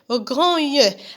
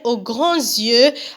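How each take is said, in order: First: No z sound links 'grands' to 'yeux'. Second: A z sound links 'grands' to 'yeux'.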